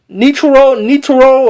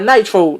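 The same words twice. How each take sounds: First: "Nitro" said as nee-toh-ro; "Nitro" in Japanese-style syllables, first vowel ee; alternative pronunciation. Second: "nitro" said as NYE-troh; "nitro" in two English syllables, NYE-troh; own usual pronunciation. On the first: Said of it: "or whatever you wanna call it". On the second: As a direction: say "nitro" with a long i, as in night. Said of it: "I call it nitro". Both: Shown as a demonstration.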